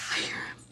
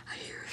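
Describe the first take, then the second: First: Quiet. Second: Even softer whisper. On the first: First whisper. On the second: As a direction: breathe it almost silently. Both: Acted.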